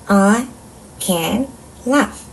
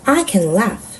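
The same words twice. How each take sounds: First: Each word is separated by a short pause. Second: The whole sentence flows without pauses between words. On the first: "한 단어씩 끊어 읽어볼게요" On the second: "전체 문장 읽기"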